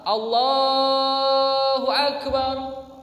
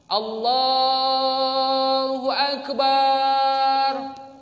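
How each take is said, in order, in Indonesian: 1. Vokal 'ba' pada Akbar dibaca pendek. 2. Vokal 'ba' pada Akbar dipanjangkan. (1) "Jadi kayak mana?" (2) "dibaca panjang pada lafaz ba pada lafaz akbar. ... salah"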